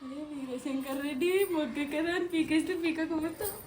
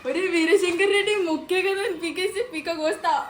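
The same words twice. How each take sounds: First: It is said in a calm tone. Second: It is said in a surprised tone.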